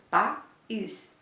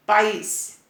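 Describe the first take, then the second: First: "País" split into two beats, pa, then ís; syllable demonstration. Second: Said in the usual way. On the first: Shown as a demonstration. Teacher showing pupils where the stress falls, "País" split as pa-ís. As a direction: break "País" apart to show the stressed final ís. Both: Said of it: "O is é oxítona".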